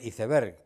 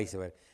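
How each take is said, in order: First: It is pronounced the Spanish way. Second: It is pronounced the English way. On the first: The word is adapted to Spanish. "Ellos dicen iceberg... ellos adaptan" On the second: The word keeps its original language form. "nos gusta pronunciar las palabras en su lengua original. Es correcto"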